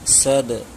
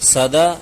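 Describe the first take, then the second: First: The final consonant ends with a slight bounce. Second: The final consonant is followed by a full vowel. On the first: The speaker calls it right. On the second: The speaker calls it wrong.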